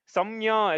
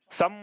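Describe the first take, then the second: First: सम्य with the ya released after the m; incorrect split reading. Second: सम closed on a held m; joined consonant reading. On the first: Teacher showing how not to read, सम्य released. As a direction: run सम्य on into an open ya. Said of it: "ऐसा नहीं पढ़ना है". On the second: Teacher showing how to read it, सम closed on m. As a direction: say सम as one closed syllable, humming the m. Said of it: "ऐसा पढ़ना है". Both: Shown as a demonstration.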